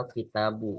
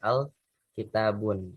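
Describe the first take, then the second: First: The word ends in a plain u vowel. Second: The word ends with an added n sound. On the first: The speaker calls it right. "dibacanya al-kitabu" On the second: The speaker calls it wrong. "bukan al-kitabun"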